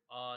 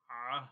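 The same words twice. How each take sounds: First: آ said plainly as a glottal a; hamza-like a; wrong hamza sound. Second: آہ voiced from mid-throat, not a glottal stop; middle-throat ain sound; correct ain from the throat. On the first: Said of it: "آ نہیں پڑھیں گے". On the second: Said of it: "اس کو حمزہ کی sound نہیں پڑھیں گے". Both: Shown as a demonstration.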